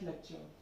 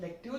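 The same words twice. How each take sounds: First: It is pronounced with English sounds. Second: It is pronounced with French sounds. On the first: The speaker calls it wrong. "don't pronounce it like lecture" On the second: The speaker calls it right. "Like in French, it's pronounced like lecture"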